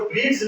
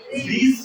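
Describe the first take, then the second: First: ब्रिज with an audible hard D before the J; D sounded in ब्रिज. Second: ब्रिज said with no D sound; silent D in ब्रिज. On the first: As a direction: voice the silent D in ब्रिज, as 'brid-j'. (ब्रिज में द का उच्चारण करते हुए) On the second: (ब्रिज में द silent रखकर) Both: Shown as a demonstration. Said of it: "ये द को हम लोग उच्चारण नहीं करेंगे".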